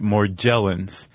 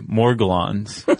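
First: The G is pronounced soft, as in gel. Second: The G is pronounced hard, as in go. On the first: "I saw on some pronunciation site" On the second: "we're both going to make a hard G sound"

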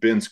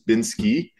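First: The name ends with a 'k' sound. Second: The name ends with an 'ee' vowel. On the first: The speaker calls it right. "all of a sudden Binsk was our word" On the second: The speaker calls it wrong. "The word that we hear the most is Binsky"

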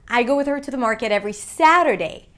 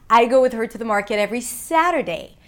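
The two takes are said the same way.

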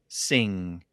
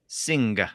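First: The word ends without a distinct hard G. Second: The word ends with a distinct hard G. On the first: This is how it is said today. "we don't really pronounce it with a very distinct G sound" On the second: This is how it was said in older English. "It was a very distinct g at the end"

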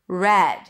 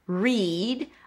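First: The vowel is a short 'e' sound. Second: The vowel is a long 'ee' sound. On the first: It is the past tense. "The past form. Read. Then it's just an E sound" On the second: It is the present tense. "an R sound, a high E, re, and then a D"

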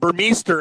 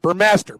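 First: The ending sounds like 'meester'. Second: The ending sounds like 'master'. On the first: The speaker calls it wrong. "I used to call him Burmester" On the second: The speaker calls it right. "it's Master"

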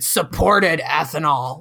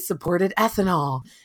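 First: It is said in a disgusted, scornful tone. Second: It is said in an approving, positive tone. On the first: Supporting ethanol is a terrible thing. "Like, it was the worst thing ever" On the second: Supporting ethanol is a good thing. "I live in Iowa right now, and that would be"

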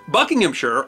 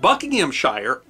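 First: The ending is shortened to a weak 'sher'. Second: The ending rhymes with 'fire', said in full.

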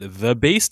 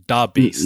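First: The first word starts with a soft 'th' sound. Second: The first word starts with a hard 'd' sound. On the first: The nickname is said in proper standard form. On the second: The nickname is said in a casual slang form.

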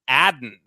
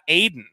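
First: The first vowel is a short 'a' sound. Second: The first vowel is a long 'ay' sound. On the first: The speaker calls it right. "It's Adden" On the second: The speaker calls it wrong. "His name is not Aiden"

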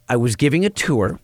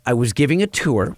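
First: The word 'giving' is carefully and clearly enunciated. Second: The same.

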